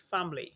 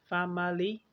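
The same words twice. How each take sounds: First: फैमिली as two syllables, fam-lee; schwa dropped. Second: फैमिली as three syllables, fa-muh-lee; full form. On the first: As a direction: cut the middle vowel from फैमिली. (फैमिली छोटा करके: फैम-ली) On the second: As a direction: keep the schwa in फैमिली after m. (फैमिली पूरा: फै-म-ली) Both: Shown as a demonstration. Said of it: "ये बन गया".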